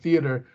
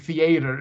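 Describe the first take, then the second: First: The word is given its ordinary standard pronunciation. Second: The word is given a deliberately mangled pronunciation. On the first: The speaker calls it right. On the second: The speaker calls it wrong.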